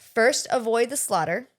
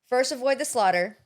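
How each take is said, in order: First: It is read at a slower pace. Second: It is read at a quicker pace.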